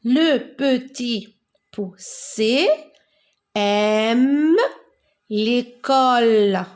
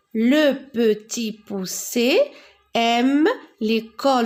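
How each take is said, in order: First: Drawn-out teacher read-aloud; slow model reading. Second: Said in the usual way. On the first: Shown as a demonstration. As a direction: read it out slowly, word by word. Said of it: "lecture lente modèle". (lecture lente, mot par mot) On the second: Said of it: "lecture normale".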